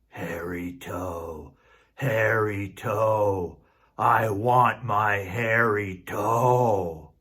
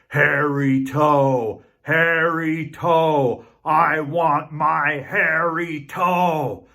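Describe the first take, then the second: First: It is said fairly quietly. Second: It is said loudly.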